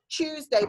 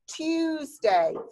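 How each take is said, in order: First: The word begins with a ch sound. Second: The word begins with a clear t sound. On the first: The speaker calls it wrong. "lots of you say ch ch ch Tuesday, but it's not" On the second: The speaker calls it right. "It's t Tuesday"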